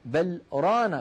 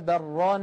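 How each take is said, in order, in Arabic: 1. وقفة قصيرة تفصل بين الكلمتين. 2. تتصل الكلمتان دون أي وقفة. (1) "الحكمة من هذا السكت" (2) "لو وصلنا لتعين علينا أن نقول"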